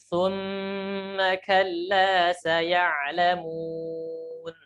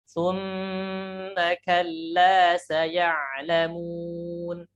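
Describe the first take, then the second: No difference in how they are said.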